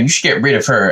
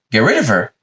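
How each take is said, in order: First: Lightly voiced wimp urging blame; a hint of a weaselly suggestion; wimpy tattletale. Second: Mock disbelief, thrown back as a question; incredulous echo. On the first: Adam urging God against Eve, mildly wimpy. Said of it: "wimpy little bitch that he is". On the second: God answering Adam's suggestion, lightly incredulous. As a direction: echo it as if mildly appalled.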